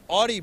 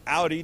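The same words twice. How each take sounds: First: Audi said AW-dee; alternative pronunciation. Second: Audi said OW-dee; alternative pronunciation. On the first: Host naming the Audi booth, Audi said AW-dee. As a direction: say Audi with an open "aw" first vowel. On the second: Host giving the other version, Audi said OW-dee. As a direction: say Audi with "ow" as in loud. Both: Shown as a demonstration. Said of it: "some people would say Audi".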